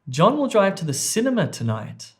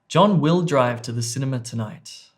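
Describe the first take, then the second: First: The stress falls on the word 'cinema'. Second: The stress falls on the word 'will'. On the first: "I've placed emphasis or word stress on D, cinema" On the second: "the emphasis or the word stress there was on B"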